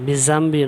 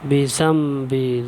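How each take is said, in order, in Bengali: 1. ব্যঞ্জনটি একটি গুঞ্জনধ্বনিযুক্ত 'z' ধ্বনি। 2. ব্যঞ্জনটি একটি নরম 'dh' ধ্বনি। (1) "নয়" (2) "উপরে দুই দাঁতের সঙ্গে জিবাটা লাগা"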